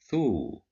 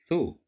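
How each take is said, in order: First: The vowel is drawn out long. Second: The vowel is short and clipped. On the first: "But if we add waw" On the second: "controlled by dhamma"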